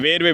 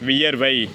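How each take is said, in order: First: The word begins with a short 'ver' sound. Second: The word begins with a fuller 'viyar' sound. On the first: This is the colloquial form. The speaker calls it wrong. "வலுவுச்சொல்" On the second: This is the standard form. The speaker calls it right. "அதுக்கு திருத்தம் என்ன"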